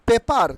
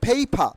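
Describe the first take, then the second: First: The first p is plain, without a puff of air. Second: The first p is aspirated, with a puff of air. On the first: The speaker calls it wrong. "Not পেপার" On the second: The speaker calls it right. "কি হবে? ফেইফা"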